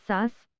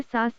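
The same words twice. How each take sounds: First: सास with the आ nasalised through the nose, like सांस; nasal vowel demo. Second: सास with a plain oral आ, no nasal sound; plain vowel demo. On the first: Teacher contrasts nasal सांस for Malayalam learners, nasalised. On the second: Teacher contrasts oral सास for Malayalam learners, no nasal. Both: Shown as a demonstration. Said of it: "निर्नुनासिक स्वर के बदले अनुनासिक स्वर".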